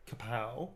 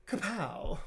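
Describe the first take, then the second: First: Said in the usual way. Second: Kapow thrown up high and punchy; higher kapow. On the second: Shown as a demonstration. Signing a card, playful higher Kapow. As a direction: pop the Kapow up like a comic punch. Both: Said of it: "He doesn't say kapow".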